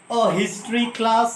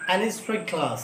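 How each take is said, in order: First: A history class, slow with a sounded h; slow demo. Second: An history class with the h dropped, softer; short form. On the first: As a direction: say it slowly, sounding the h. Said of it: "long form में पढ़ोगे". (धीरे, ह की आवाज़ के साथ) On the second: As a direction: drop the h and link an onto it. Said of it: "short form में". (ह को छोड़कर, धीमी आवाज़ में) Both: Shown as a demonstration.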